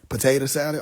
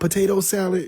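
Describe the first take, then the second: First: Potato ends with an 'a' sound. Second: Potato ends with a clear 'o' sound. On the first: The cook is from home and the food will be good. The speaker calls it right. "if it's all A's" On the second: The cook is from a posh neighbourhood and the food will be bad. The speaker calls it wrong. "if you see an O in there"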